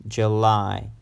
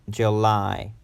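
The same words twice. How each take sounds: No difference in how they are said.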